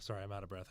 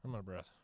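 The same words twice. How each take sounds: First: Winded, catching breath between words. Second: Winded, short of air; out of breath. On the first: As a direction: talk while still panting from the stairs. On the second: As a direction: say it while still panting. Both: Real, not acted.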